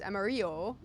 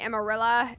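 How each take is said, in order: First: It is said with a Spanish accent. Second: It is said with a Texan accent.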